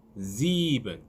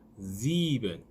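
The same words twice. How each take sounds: First: The first S is a buzzing z sound. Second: The same.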